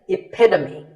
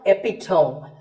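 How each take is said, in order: First: The ending is said as two syllables. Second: The ending is said as one syllable. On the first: The speaker calls it right. "Once again" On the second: The speaker calls it wrong. "It's not epitome"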